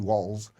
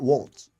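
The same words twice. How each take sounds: First: The name ends with a 'z' sound. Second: The name ends with a 'ts' sound. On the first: The speaker calls it right. "Waltz with you know W A L Z" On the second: The speaker calls it wrong. "not Waltz with the T"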